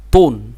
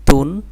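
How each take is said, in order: First: তুন, full and heavy at the start; thick t. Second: তুন, light at the start, demonstrated firmly; thin t. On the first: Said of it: "এটাকে একটু মোটা করে দেখেন". (তুন মোটা করে) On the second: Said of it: "চিকন করে pronunciation করতে হবে". (তুন চিকন করে) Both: Shown as a demonstration.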